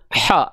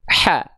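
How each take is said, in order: First: The vowel sounds thick, without a slight smile. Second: The vowel sounds thin, with a slight smile. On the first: The speaker calls it wrong. "Bukan H" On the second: The speaker calls it right. "tapi H"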